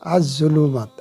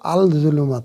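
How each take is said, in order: First: The l merges into the following z sound. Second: The l is pronounced clearly before the z. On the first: The speaker calls it right. "আলিফ লাম ঠিকই থাকলো, কিন্তু ওটার উচ্চারণ হলো না।" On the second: The speaker calls it wrong. "আল-জুলুমাত হলো না"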